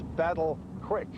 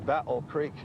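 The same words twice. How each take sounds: First: The second word sounds like 'crick'. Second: The second word sounds like 'creek'.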